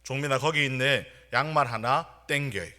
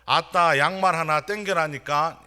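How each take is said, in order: First: Imitating a senior soldier calling out, only slightly louder; half-hearted mock yell to a junior; mild retold shout. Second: Raised, high-pitched yell with 전라도 dialect; louder retold shout. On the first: Senior from 여수 abruptly yells to junior during emergency dispatch, mild retold shout. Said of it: "갑자기 이렇게 소리를 쳤습니다". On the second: Senior repeats the order to a junior who misheard, louder mock shout. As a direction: imitate an exasperated senior soldier, louder and higher. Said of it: "고참은 더 큰 소리로".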